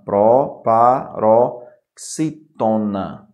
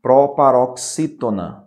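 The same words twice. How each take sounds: First: Proparoxítona very slowly, pro-pa-ro-xí-to-na; syllable by syllable. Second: Said in the usual way. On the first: Shown as a demonstration. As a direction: break proparoxítona into separate, drawn-out syllables. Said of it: "porque é uma palavra proparoxítona".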